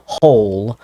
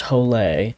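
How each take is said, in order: First: Said in the usual way. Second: Hole said in two syllables, like "ho-lay"; special pronunciation. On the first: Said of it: "it's spelled hole, but it's pronounced". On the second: Shown as a demonstration. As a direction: sound out the final e of Hole as "lay". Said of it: "it's pronounced".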